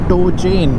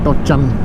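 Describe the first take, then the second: First: It is said as two separate English words. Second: It is blended into one word, 'tochan'. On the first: The original English term. "It just tow chain" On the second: The term as adopted into Hindi. "just became Tochan"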